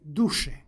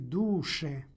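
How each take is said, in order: First: The accented vowel is short. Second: The accented vowel is long. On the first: It addresses the spirit. "Kod imenice duh vokativ glasi duše" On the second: It addresses the soul. "ovaj oblik vokativa izgovara se sa dugim akcentom"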